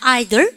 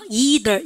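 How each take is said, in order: First: It begins with an 'eye' sound. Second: It begins with an 'ee' sound. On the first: "영국 애들은 발음가" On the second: "우리는 뭐예요?"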